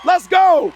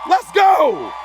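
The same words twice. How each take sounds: First: Louder rallying shout. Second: Rallying shout. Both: Retold or imitated. Repeated rallying cry.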